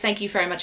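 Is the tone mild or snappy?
mild. It is said lightly in a calm voice. A polite, ordinary thanks. "it wasn't just like"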